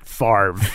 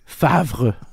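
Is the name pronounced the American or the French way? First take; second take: American; French. First: The name is said with an American pronunciation. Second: The name is said with a French pronunciation. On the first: The speaker calls it wrong. "the way Americans pronounce French words" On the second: The speaker calls it right. "the R doesn't even come before the V"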